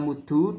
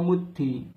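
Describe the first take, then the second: First: The word ends in an u vowel. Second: The word ends in an i vowel. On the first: "bisa dibaca muddu dengan domah" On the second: "dan bisa kasroh muddi"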